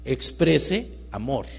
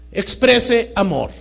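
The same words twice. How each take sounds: First: "Exprese" drawn out slowly at normal level; slow stress on exprese. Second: "Exprese" hit high and loud, slowly; stress on exprese. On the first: Speaker repeating for the audience, "Exprese" slow and deliberate. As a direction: slowly weigh the word "Exprese". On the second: Speaker to the audience, punching "Exprese" loud and slow. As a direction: lean hard on the word "Exprese". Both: Shown as a demonstration. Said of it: "Fíjese la palabra que pongo".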